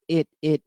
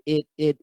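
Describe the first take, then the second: No difference in how they are said.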